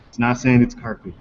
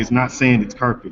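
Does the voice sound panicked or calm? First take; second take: calm; panicked. First: It sounds calmer and more relaxed. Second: It sounds frantic and panicked.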